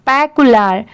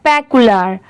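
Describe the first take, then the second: Both takes have the same delivery.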